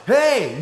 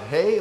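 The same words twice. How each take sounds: First: High, loud imitated "hey"; excited kids' greeting. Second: Said in the usual way. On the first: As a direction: mimic kids hailing someone gleefully. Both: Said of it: "you don't say it like that".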